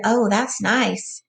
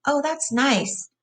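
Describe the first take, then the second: First: Slow, drawn-out and dreamy; slow pleased sigh. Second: Slow, higher and lost in pleasure; dreamy simple giant. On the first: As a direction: savour each word like stroking velvet. Lenny stroking hair, pleased. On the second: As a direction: drift off into the feel of it. Lenny repeats, more lost in it. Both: A narrator's reading.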